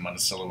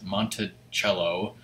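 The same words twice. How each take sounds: First: The name is said quickly and casually. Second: The name is said slowly and carefully. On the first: The speaker gives the name of the town in Indiana. The speaker calls it wrong. "my brain almost said Monticello because that's I'm used to pronouncing Monticello, Indiana" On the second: The speaker gives the name of Jefferson's house. The speaker calls it right. "I like how you said it slowly"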